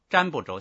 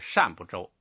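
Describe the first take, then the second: First: The first syllable begins with a 'zh' sound. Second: The first syllable begins with an 'sh' sound. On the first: The speaker calls it wrong. "有好多意的叫瞻不周，像这个就是瞻仰的瞻" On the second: The speaker calls it right. "实际上应该是善不周比较准确"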